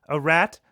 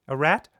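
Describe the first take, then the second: Both takes have the same delivery.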